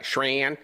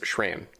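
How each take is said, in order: First: The name is said with a Midwestern vowel. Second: The name is said with a neutral vowel. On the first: The speaker calls it wrong. "like I did, like I, my family in Ohio" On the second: The speaker calls it right. "but it is Shran"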